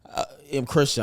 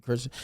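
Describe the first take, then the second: First: «Christian» произнесено чётко и громче, каждое слово отдельно; said clearly. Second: Said in the usual way. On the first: Shown as a demonstration. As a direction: say «I'm Christian» loud and clear, no mumbling. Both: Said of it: "I wanted to say that clearly".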